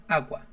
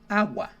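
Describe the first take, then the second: First: The two vowels glide together into one syllable. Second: The two vowels glide together into one syllable.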